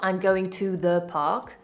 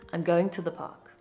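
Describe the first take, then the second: First: The word to is said with its full vowel. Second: The word to is reduced to a schwa. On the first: The speaker calls it wrong. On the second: The speaker calls it right. "To becomes t"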